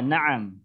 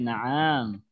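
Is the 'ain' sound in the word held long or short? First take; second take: short; long. First: The ain sound is short and not drawn out. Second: The ain sound is lengthened and drawn out. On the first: The speaker calls it right. "tidak terlalu panjang ainnya" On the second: The speaker calls it wrong. "itu nggak boleh jadi"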